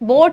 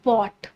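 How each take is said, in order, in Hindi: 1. स्वर 'oh' जैसा है, जैसे 'boat' में। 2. स्वर 'aw' जैसा है, जैसे 'caught' में। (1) "बोट नहीं"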